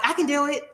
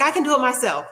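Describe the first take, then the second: First: Imitating a much higher, snappy insistence; mock-indignant I can do it. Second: Imitating a higher, snappy insistence; mock-huffy I can do it myself. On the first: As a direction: she insists again, pitched way up. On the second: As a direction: play the proud lady brushing off help. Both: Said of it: "She's real snappy".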